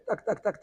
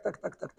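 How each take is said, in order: First: High laughing tac tac tac; knocking sound. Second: Soft voiceless tac tac tac; whispered knock. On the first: Rabbi imitating the Baal Shem Tov's knock, high and laughing. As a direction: play the knock on the window with a laugh. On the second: Rabbi imitating the Baal Shem Tov's knock, soft and voiceless. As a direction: breathe the knock out like a tiny tapping. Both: Retold or imitated.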